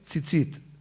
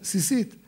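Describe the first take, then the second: First: The word begins with a ts sound. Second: The word begins with an s sound. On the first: This is how people here commonly say it. "אנחנו אומרים" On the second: Some claim this is the grammatically correct form. "הדקדוק הנכון להגיד"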